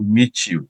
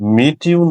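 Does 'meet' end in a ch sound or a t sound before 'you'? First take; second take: ch; t. First: The t and 'you' merge into ch. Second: A plain t sound comes before 'you'. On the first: The speaker calls it right. "আমরা বলবো মিচিউ" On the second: The speaker calls it wrong. "মিটিউ না বলে"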